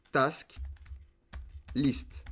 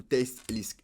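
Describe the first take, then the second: First: "Task List" with Task said "tahsk", word by word; French-style "Task", open "ah" vowel. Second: "Task List" with Task said "tesk"; French speaker's try at English "Task", with an eh vowel. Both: Shown as a demonstration. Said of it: "Désolé pour mon accent anglais".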